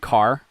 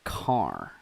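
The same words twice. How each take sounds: First: The vowel is said in a plain, ordinary way. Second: The vowel is stretched and strongly exaggerated. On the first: "So when I'm saying car" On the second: "I'm like car"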